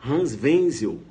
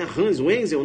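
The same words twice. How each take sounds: First: "Wenzel" with W sounded as V; German pronunciation. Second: "Wenzel" slow, W said like English W; wrong pronunciation. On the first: Teacher models the German name, W as V. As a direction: say "Wenzel" as VEN-zel. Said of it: "W com som de". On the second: Teacher shows the misreading, wrong pronunciation. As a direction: say "Wenzel" as UEN-zel. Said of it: "não". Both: Shown as a demonstration.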